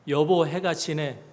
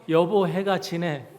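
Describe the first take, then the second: No difference in how they are said.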